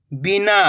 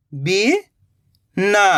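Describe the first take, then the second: First: "बिना" joined in one go, no gap; blended word. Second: "बिना" slowly split, rising "bi", long pause, "na"; split into syllables. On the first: Teacher giving learners the result, "बिना" blended. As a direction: say "बिना" whole, short i. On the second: Teacher building the word for learners, "बिना" in slow pieces. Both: Shown as a demonstration. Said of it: "तो मिलके बन जाएगा".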